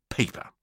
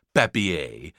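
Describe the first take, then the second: First: Said in the usual way. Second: "papier" said as affected French; pretentious French pronunciation of "papier"; mock French accent. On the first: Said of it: "could have quite easily just called out paper". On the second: A narrator's reading. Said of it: "in a mock French accent".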